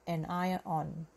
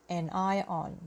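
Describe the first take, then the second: Both takes have the same delivery.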